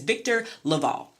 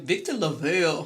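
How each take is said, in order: First: The surname is said in a plain, careful way. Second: The surname is said in a flamboyant, stylized way. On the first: The speaker calls it right. "by pronouncing it correctly" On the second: The speaker calls it wrong. "like he was dipped in Jerry Curl juice in a John Singleton movie"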